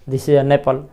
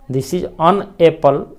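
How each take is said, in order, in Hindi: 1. n ध्वनि apple के साथ जुड़ जाती है। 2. शब्द 'an' को apple से अलग रखा जाता है। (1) "उच्चारण में कि दिस इज अ नेपल" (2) "लिखते तो हैं ऐसे"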